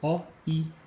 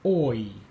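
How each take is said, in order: First: The two vowels are said as separate sounds. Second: The two vowels glide together as one sound.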